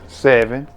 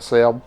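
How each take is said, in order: First: It is said in a standard accent. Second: It is said in an Alabama accent.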